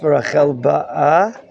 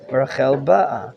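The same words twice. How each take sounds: First: The stress falls on the second syllable of ba'a. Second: The stress falls on the first syllable of ba'a. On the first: Rachel is coming. "the cantillation sign is atop the Aleph" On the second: Rachel came. "The cantillation sign is on top of the letter Bet"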